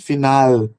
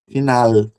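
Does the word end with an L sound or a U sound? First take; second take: U sound; L sound. First: The final L sounds like a U glide. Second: The final L sounds like a clear L. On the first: "ela pode ser com som de U" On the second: "e com som de L"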